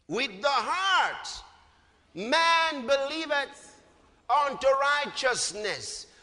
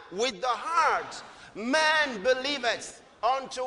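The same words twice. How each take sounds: First: Slow, drawn-out recital; slow verse reading. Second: Slow recital left hanging; slow repeat, left open. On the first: Preacher leading the congregation, slow recital. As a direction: read each word for them to repeat. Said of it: "Let's read that verse together". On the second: Preacher prompting the congregation, slow recital. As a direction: stop short so they fill in the word. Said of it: "One more time". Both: Shown as a demonstration.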